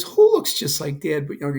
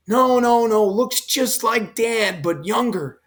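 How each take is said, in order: First: Said in the usual way. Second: Higher pitched eager insisting, drawn out on like Dad; lightly voiced son pressing his point; insistent correction.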